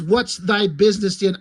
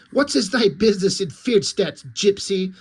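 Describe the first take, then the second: First: Plain. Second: Lightly voiced stern nun; a hint of a nun's challenge; mock warrior nun. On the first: Acted. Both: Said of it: "the one warrior nun says".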